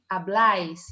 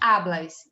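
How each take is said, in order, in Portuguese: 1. A tônica está na última sílaba. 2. A tônica está na primeira sílaba. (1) "e sim habláis" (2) "a tônica não é hablas"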